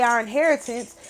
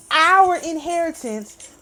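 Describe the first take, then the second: First: Said in the usual way. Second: "our" drawn out and higher; stress on OUR. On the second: Real, not acted. Angry speaker insisting the land was theirs, heavy stress on "our". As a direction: lean slowly and hard on "our". Repeats the words for emphasis.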